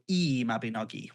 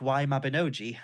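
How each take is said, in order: First: The first word sounds like 'ee'. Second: The first word sounds like English 'why'. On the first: Someone else says the first word with an 'ee' sound. "some people will even go" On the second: Someone else reads the title like an English letter. "they go, you know, oh, your book"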